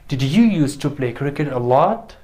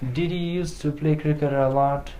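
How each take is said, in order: First: It is said with a questioning tune. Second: It is said with a flat statement tune. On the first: The speaker calls it right. "It's a question" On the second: The speaker calls it wrong. "it doesn't sound nice"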